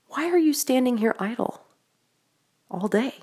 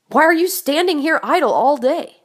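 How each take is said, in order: First: The question sounds gentle and caring. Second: The question sounds sharp and accusing. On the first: The asker feels sorry for them. "Or was it compassionate?" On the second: The asker is reproaching them for being idle. "Was it pointed?"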